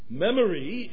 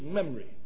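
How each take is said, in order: First: The unstressed vowels keep their full sound. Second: The unstressed vowels are reduced to schwa. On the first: The speaker calls it right. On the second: The speaker calls it wrong.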